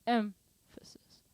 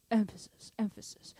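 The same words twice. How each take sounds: First: Emphasis stretched slowly, strong first syllable fading to a whisper; emphasis demonstrated. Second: Emphasis said briskly twice, first syllable stressed; emphasis demonstrated. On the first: Drum teacher showing accents as emphasis, Emphasis stretched out. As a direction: lean on the start of Emphasis, then let it trail breathily. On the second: Drum teacher repeating the example, Emphasis stressed at normal pace. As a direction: repeat emphasis at talking pace, easing off the second. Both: Shown as a demonstration. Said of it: "it just means emphasis".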